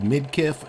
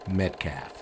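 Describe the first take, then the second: First: The name is said the way it is spelled. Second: The name is said like the word Metcalf. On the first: This is how the name is actually written. "it's spelled Midkiff" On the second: This is how the group always said the name. "I'm going to keep pronouncing it Metcalf"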